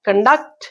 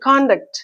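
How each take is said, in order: First: The stress is on the second syllable. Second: The stress is on the first syllable. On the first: It is used as a verb. "ikkada kan anedi stress takku untundi" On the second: It is used as a noun. "ikkada first syllable me stress"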